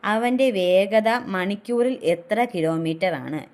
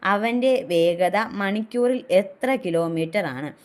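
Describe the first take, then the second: Both takes have the same delivery.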